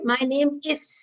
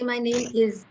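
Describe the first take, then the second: First: The word 'is' ends with a hissing S sound. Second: The word 'is' ends with a buzzing Z sound. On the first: The speaker calls it wrong. "I don't say my name is" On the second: The speaker calls it right. "I say my name is"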